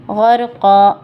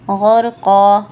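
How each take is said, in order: First: The word ends with a long -a sound. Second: The same.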